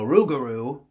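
It is said in a Louisiana accent.

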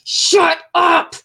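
It sounds frustrated and angry.

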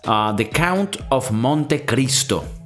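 The title is said with a Latin-style accent. "I'm saying it with the original, like, Latin, you know, like, flow"

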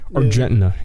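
The name is said with an American accent. "The American would be like"

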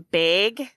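The word is said with a Wisconsin accent. "Apparently we say it really, like, ridiculously. ... We're more of a bag"

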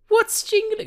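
It is said in a put-on seductive voice. "let me do a sexy voice"

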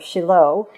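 The name is pronounced the Hebrew way. "In Hebrew, it is"

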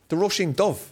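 The final word sounds like 'dove'. This is the southern Irish way of saying it. "You say Dove"

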